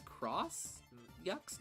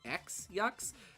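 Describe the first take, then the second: First: The first word is pronounced as cross. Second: The first word is pronounced as the letter ex. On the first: The speaker calls it right. "I hear this is read as cross yucks" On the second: The speaker calls it wrong. "not X yucks"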